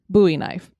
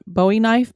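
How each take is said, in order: First: It is said the Texas way. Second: It is said the non-Texas way.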